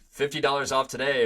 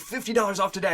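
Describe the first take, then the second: First: It is said flatly with little energy. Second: It is said with lively, excited energy. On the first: The offer is merely stated without enthusiasm. The speaker calls it wrong. "saying the offer" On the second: The offer is presented as something exciting. The speaker calls it right. "showing the offer"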